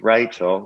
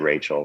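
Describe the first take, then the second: First: The name is said in an Australian accent. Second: The name is said in a plain American accent.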